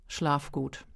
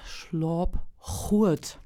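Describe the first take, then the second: First: It is said in Standard High German. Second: It is said in Münsterland Low German. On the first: "Ich sag dir jetzt mal erstmal auf Hochdeutsch" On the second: "auf der Bühne ... schuldig also sagen"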